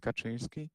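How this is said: The name is said with a Polish pronunciation. "Polish people say Kaczynski"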